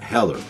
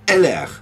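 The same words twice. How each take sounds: First: The name is said with an English pronunciation. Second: The name is said with a French pronunciation. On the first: The speaker calls it wrong. "and not Heller" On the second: The speaker calls it right. "in French, you will pronounce this as Heller"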